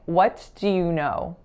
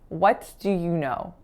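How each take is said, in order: First: The T is released and 'do' is full. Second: The T is released and 'do' is full.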